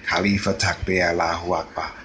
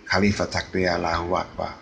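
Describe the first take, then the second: No difference in how they are said.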